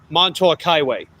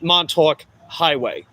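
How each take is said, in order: First: Montauk with a hard, stressed K; emphasize the K. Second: Montauk said slowly, K softened away; wrong way. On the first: Showing viewers the right Montauk, K stressed. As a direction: hit the K in Montauk. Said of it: "you emphasize the K". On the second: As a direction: Montauk with the K dropped. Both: Shown as a demonstration.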